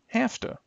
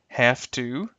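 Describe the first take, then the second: First: The words blend into one short reduced form. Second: Both words are said fully and separately. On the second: "the original forms"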